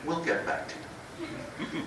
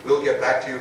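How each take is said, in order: First: Slow, soft, breathy brush-off; dismissive brush-off. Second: Said in the usual way. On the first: Retold or imitated. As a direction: let them down coldly and slowly. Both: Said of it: "In that tone of voice".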